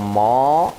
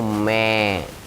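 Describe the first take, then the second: First: The vowel after m sounds like o. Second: The vowel after m sounds like e. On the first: "enggak mau mo" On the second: "enggak mau me"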